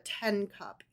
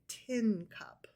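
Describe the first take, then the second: First: The vowel sounds like the one in ten. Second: The vowel sounds like the one in tin. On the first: It sounds like the number ten. The speaker calls it wrong. "you didn't drink out of a ten cup" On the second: It names a cup made of tin. The speaker calls it right. "You drank out of a tin cup"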